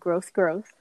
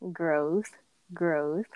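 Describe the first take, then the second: First: The two words are said quickly. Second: The two words are said slowly.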